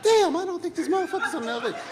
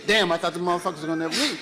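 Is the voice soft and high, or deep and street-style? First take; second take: soft high; deep street-style. First: It is said in a soft, high voice. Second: It is said in a deep, street-style voice.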